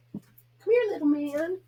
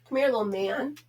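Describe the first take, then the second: First: Much higher, squeaky coaxing of the dog. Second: Coaxing the dog. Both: Real, not acted. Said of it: "I know I'm a goof with him".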